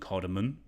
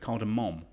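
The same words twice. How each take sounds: First: The word ends without a clear final M. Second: The word ends with a clearly stressed M. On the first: The speaker calls it wrong. "I found out it wasn't cardamom" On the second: The speaker calls it right. "I try and overpronounce the M when I say cardamom"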